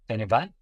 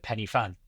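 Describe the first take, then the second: First: It is said the Welsh way. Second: It is said the English way. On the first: "penny van is is is the right way to say it" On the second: "if they're English, they'd probably call it Penny Fan"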